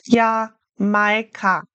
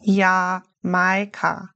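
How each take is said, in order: First: Jamaika with a Y sound, Yamaika, slowly; German Jamaika. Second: Jamaika with a Y sound, drawn out slowly; German Jamaika. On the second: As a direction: say Jamaika carefully, J as Y. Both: Shown as a demonstration. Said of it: "German J is like a Y".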